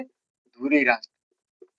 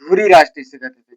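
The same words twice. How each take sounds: First: धुरी राष्ट्र spelled out word by word, very slowly; slow it right down so students can write धुरी राष्ट्र; very slow dictation. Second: Said in the usual way. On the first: Shown as a demonstration. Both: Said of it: "क्या कहते थे?".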